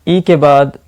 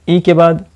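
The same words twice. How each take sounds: No difference in how they are said.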